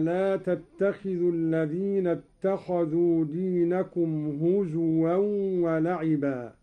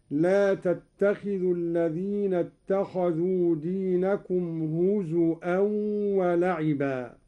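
First: Said in the usual way. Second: هزوا with a glottal stop, "huzu'an", in place of w; همز الواو. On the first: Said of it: "وإبدال الهمز واوا للتخفيف". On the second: Shown as a demonstration. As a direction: put a hamza in هزوا where the waw would be. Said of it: "بهمز الواو هكذا". (هزوا بالهمز بدل الواو)

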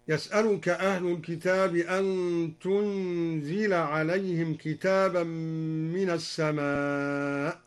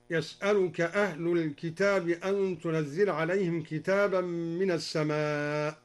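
First: "تنزل" as tunzila; lightened zay. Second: Said in the usual way. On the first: Shown as a demonstration. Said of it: "قرأ الدوري بتخفيف".

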